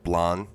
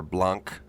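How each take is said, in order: First: "Blan" with the final consonant left silent; French-style pronunciation. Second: "Blanc" with a hard k at the end; anglicized pronunciation. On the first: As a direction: say "Blan" ending on the vowel, no hard k. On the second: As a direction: say "Blanc" to rhyme with bank or honk, k sounded. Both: Shown as a demonstration. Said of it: "depending on how you pronounce it".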